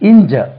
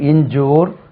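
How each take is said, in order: First: The second vowel is a short er sound. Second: The second vowel is a long oo sound. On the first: The speaker calls it right. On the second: The speaker calls it wrong.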